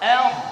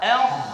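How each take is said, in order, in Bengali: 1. ধ্বনিটি হালকা ও পাতলা। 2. ধ্বনিটি হালকা ও পাতলা।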